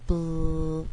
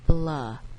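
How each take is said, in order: First: The L sound is held with no vowel after. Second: An extra vowel sound follows the L. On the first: The speaker calls it right. "sound out bl and carry that L out" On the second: The speaker calls it wrong. "instead of saying blah"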